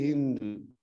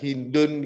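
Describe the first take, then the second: First: The word ending is faint and barely audible. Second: The word ending is pronounced fully and clearly. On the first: The speaker calls it right. "dibaca samar-samar" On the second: The speaker calls it wrong. "nggak dihindun gitu"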